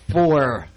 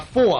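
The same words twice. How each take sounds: First: It is said in a drawn-out Southern accent. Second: It is said in a New York accent. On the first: "let me try normal way here" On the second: "my New York accent"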